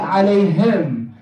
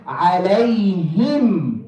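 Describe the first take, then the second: First: عليهم ending in "hem" instead of "him"; mistaken "hem" ending. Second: عليهم drawn out, ending in a clear "him". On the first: Teacher shows the wrong vowel in عليهم, mistaken "hem" ending. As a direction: loosen the last vowel of عليهم to e. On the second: Teacher models عليهم slowly for students, clear "him" ending. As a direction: hold a pure i in the last syllable of عليهم. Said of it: "the last thing we said". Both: Shown as a demonstration.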